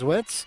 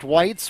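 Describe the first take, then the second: First: The vowel is a short 'i', like 'wit'. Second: The vowel is a long 'i', like 'white'. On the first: The speaker calls it right. "it was Witz" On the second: The speaker calls it wrong. "incorrectly pronounced Whites"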